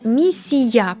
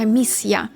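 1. Звук s пом'якшується перед звуком i. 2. Звук s залишається твердим прямо перед ya. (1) "не «місія» по-польську" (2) "Тобто воно має бути таке тверде"

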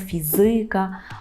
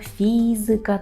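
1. Наголос падає на другий склад. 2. Наголос падає на перший склад. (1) "Чому не ... фізика" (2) "наголошуємо третій склад з кінця"

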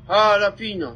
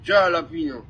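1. Słowo zaczyna się dźwiękiem H. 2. Słowo zaczyna się dźwiękiem Y. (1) "J czyta się jak H"

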